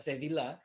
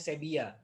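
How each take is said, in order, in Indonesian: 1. Dibaca sesuai tulisannya, dengan v dan l. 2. Bunyinya b dan bunyi seperti y. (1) "yang tulisannya Sevilla" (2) "itu bacanya Sevilla"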